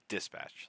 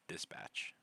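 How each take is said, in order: First: The first part is strongly, harshly enunciated. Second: The first part is said softly and relaxed. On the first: The speaker calls it wrong. "Like you enunciate the first part" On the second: The speaker calls it right. "instead of dispatch"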